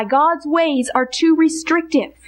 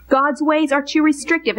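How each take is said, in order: First: "too" stressed slowly and deliberately; slow stated lie. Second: Said in the usual way. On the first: Shown as a demonstration. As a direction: spell out "too restrictive" word by word. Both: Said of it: "And then this lie".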